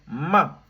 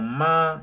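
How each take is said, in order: First: It is said with a sharply falling pitch. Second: It is said with a high, level pitch. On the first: It is an insult. "Avec le quatrième ton" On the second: It means mother. "avec le premier ton"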